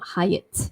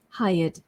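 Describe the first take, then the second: First: The word does not end with a d sound. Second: The word ends with a d sound. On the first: The speaker calls it wrong. "not hired, obviously" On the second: The speaker calls it right. "So you say hired with a D ending"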